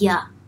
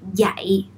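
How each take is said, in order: First: The word has a very weakened vowel. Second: The word has a full, clear vowel. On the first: "something like yeah, yeah, very weakened" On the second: "I didn't really say like dạy"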